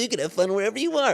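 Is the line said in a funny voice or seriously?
funny voice. It is said in a put-on, funny voice. The sentiment is mocked as a cliche. "the funny voice way"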